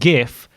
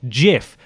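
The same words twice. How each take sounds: First: It begins with a hard G sound. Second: It begins with a soft G sound. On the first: "not GIF" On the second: "pronounced with a soft G"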